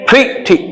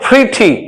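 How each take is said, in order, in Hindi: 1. पहला स्वर 'ee' जैसा बोला जाता है। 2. पहला स्वर 'ee' जैसा बोला जाता है।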